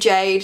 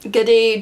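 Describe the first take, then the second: First: The name is said in one syllable. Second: The name is said in two syllables. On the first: "other people say it is pronounced Jade" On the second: "you pronounce it like G-A space D-E, like Giddy"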